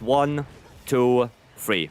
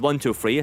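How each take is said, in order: First: The counting is slow and spaced out. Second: The counting is fast and rushed.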